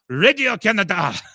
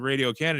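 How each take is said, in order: First: It is said with a French accent. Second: It is said with an English accent. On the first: The speaker calls it right. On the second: The speaker calls it wrong. "I thought that's what I said"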